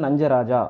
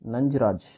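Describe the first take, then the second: First: The name ends in a vowel sound. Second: The name ends in a consonant sound. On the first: This is the actual original name. The speaker calls it right. "ஆக்சுவலா கரெக்ட்டான பேருனா" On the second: This is the commonly used form of the name. The speaker calls it wrong. "அவரோட பேர் வந்துட்டு"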